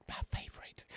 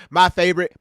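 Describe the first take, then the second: First: Mocking slipped-in whisper; teasing stage whisper; imitating a whisper. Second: Said in the usual way. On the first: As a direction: whisper it like a slip. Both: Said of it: "slip up and whisper".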